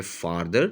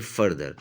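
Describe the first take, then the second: First: Farther with an open, long "far" vowel. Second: Further with a short central "fur" vowel. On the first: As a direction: open up the first vowel of farther, faar-ther. (farther में "फ़ार" की लंबी आवाज़) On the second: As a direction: keep the first vowel of further closed, fur-ther. (further में "फ़र" की छोटी आवाज़) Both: Shown as a demonstration. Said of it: "इसमें बाकायदा प्रोनंसिएशन का फ़र्क है".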